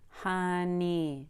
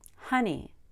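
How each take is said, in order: First: The stress is on the second syllable. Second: The stress is on the first syllable. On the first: The speaker calls it wrong. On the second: The speaker calls it right. "we usually stress the first syllable"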